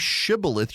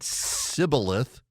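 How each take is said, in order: First: The word begins with an sh sound. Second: The word begins with a plain s sound. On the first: The speaker belongs to the home tribe. The speaker calls it right. "the Gileadites could make the sound shh" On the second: The speaker is from the enemy tribe. The speaker calls it wrong. "They said s"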